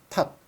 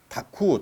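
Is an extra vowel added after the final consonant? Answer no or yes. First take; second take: no; yes. First: The word ends on a closed consonant. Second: The final consonant is followed by a vowel. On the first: This is the Korean pronunciation. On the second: This is the Japanese pronunciation.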